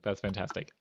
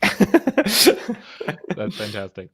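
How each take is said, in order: First: Said in the usual way. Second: Slow, loud, laughing "That's fantastic"; drawn-out laughing delight. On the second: Real, not acted. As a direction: stretch "That's fantastic" out slowly through a laugh. Laughing reaction to Polish accent joke.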